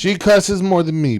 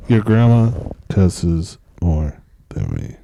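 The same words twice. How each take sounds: First: High, loud objection; indignant, raised-voice comeback; loud protest. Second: Slow, low, loud podcast-host delivery; mock broadcaster, very slow and deep. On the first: Real, not acted. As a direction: protest it loudly, pitched up. Protesting what son just said. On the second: Shown as a demonstration. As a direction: draw it out in a big, low host voice. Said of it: "What if this was my podcast voice?".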